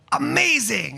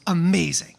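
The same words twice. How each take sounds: First: Higher, bigger "Amazing" after a spin; dramatic reveal. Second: Said in the usual way. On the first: Shown as a demonstration. Asking the girl to spin and say "Amazing", showy and excited. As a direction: sell the word "Amazing" like a grand reveal. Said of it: "then spin and go".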